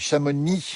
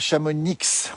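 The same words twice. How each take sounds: First: The final x is silent. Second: The final x is pronounced. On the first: The speaker calls it right. "on dit" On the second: The speaker calls it wrong. "on dit pas"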